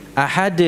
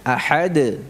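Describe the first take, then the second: First: Ahad ending in a plain Latin D. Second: Ahad ending in a bouncing dal. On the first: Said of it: "Yang satu dengan huruf D". (ahad diakhiri huruf D) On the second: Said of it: "Kalau ini dal". (ahad diakhiri dal yang memantul) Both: Shown as a demonstration.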